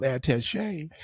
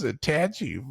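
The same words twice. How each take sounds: First: "attaché" with a French-style final SHAY; corrected attaché. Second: "attaching" said slowly in place of attaché; attaché mispronounced. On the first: Correcting his idiot friend, French-style pronunciation. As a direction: say "attaché" ending in a long ay. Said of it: "it's called attaché". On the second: Friend puzzling over USB drives, naive mispronunciation. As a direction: misread attaché as an everyday English word, "attaching". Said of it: "You idiot, it's called attaché". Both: Retold or imitated.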